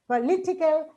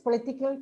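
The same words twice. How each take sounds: First: The stress is on the syllable li. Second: The stress is not on the syllable li. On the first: The speaker calls it right. "with stress on li" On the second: The speaker calls it wrong. "unless we know this, we say"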